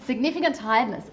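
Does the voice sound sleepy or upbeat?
upbeat. It is said in a bright, upbeat tone.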